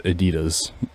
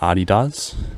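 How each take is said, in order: First: The name is pronounced the English way. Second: The name is pronounced the German way. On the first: "in English it's Adidas" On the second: "now I call it Adidas, like Germans do"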